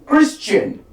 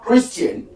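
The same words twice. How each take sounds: First: The middle is said with an sh sound. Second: The middle is said without an sh sound. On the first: The speaker calls it right. "voiceless post-alveolar fricative" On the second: The speaker calls it wrong.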